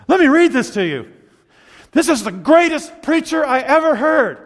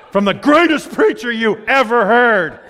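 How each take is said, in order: First: Quoting wife. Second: Slow, drawn-out mock awe; sarcastic echo. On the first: Retold or imitated. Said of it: "and she'll say". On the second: Husband teasing his wife about her favorite preacher, sarcastic echo. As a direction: repeat her praise with teasing doubt. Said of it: "And I think".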